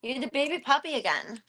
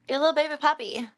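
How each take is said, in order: First: Higher cooing to the puppy; baby talk. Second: Higher, louder, fast gushing coo; fast squeaky pet talk; baby talk. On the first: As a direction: dote on the dog. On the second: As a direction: gush over the little puppy. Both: Pretend.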